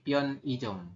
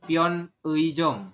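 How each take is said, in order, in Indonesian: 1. Vokal tengah diucapkan sebagai 'i' biasa. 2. Vokal tengah diucapkan sebagai luncuran 'ui'. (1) "tapi pion ijom" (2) "Bukan pion eijom"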